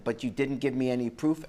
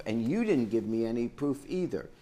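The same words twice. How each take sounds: First: "proof" rising at the end, the key word; stress on proof. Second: "you" hit hardest, falling finish; stress on you. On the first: Judge telling the first litigant: lean on "proof". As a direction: lean on "proof" as the thing that is missing. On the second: Judge turning to the second litigant: stress "you". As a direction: point at "you", then let it fall. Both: Real, not acted.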